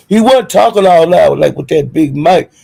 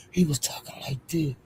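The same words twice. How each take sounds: First: Loud, pushed mock big-mic voice; imitating loud talk. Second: Very soft, small mock voice; imitating subdued talk. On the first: Mocking his bragging on the big mic, loud imitation. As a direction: blare it out in mockery. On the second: Showing viewers how he talked afterwards, hushed imitation. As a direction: drop right down to mimic him meekly.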